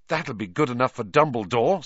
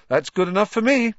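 First: Said in the usual way. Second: Much higher, brighter and louder delight; gleeful Ron accepting the owl; happy. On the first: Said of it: "said Harry happily". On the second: A narrator's reading. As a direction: beam it out, thrilled. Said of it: "said Ron happily".

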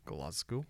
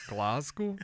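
First: A bad attempt at a Scottish accent, Glasgow said low and soft; a terrible mocking Scottish take on Glasgow. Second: Put-on an even worse Scottish accent on Glasgow, said through a laugh; a laughing, botched Scottish Glasgow. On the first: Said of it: "That was a terrible Scottish accent". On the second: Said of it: "That's even worse".

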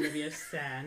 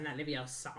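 First: "Leviosa" slow and low, prim film-quote correction; quoted correction. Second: "Leviosa" low with the last syllable leaned on, laughing; mocked mispronunciation. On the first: Retold or imitated. Friend spoofing a pronunciation lesson, careful "Leviosa". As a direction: pronounce "Leviosa" carefully as the right version. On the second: Friend spoofing a pronunciation lesson, mocked "Leviosa". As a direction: mockingly drag out "Leviosa" as the wrong version.

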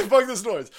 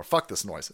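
First: Loud, higher fed-up outburst; louder outburst. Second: Said in the usual way. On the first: Pretend. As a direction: snap it loudly, fed up. Loud repeat of quote.

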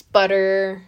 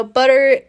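First: Said in the usual way. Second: Butter said louder, leaning hard on it; butter, stressed and louder. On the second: Shown as a demonstration. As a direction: punch the word butter for emphasis. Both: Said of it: "emphasis on the butter".

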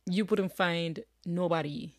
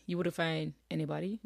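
First: Says nobody in the rural Jamaican way, the double negative kept; country grammar on purpose, you wouldn't find nobody; casual dialect double negative nobody. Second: Said in the usual way. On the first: Shown as a demonstration. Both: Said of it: "nobody, see".

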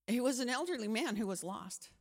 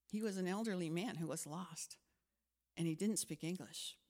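First: Said in the usual way. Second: Said again softer; a quieter, sincere repetition of the realisation; softer reflective. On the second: Shown as a demonstration. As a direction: let it sink in quietly. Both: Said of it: "repeated softer".

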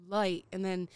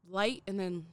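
No difference in how they are said.

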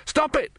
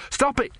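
First: Even higher, louder panicked shout; shouting again. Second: Shouting. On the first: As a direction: repeat the yell, climbing further. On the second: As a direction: yell it as the water sprays his face. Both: Acted. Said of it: "he shouted".

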